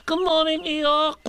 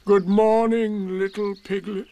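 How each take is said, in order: First: Very high little called-out greeting; Piglet shouting. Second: Eeyore, glum. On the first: Piglet calling out to Eeyore at the stream, high shout. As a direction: call out brightly in a tiny high voice. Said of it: "shouted Piglet". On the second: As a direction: drag the greeting out, raised in pitch. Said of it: "said Eeyore". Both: A narrator's reading.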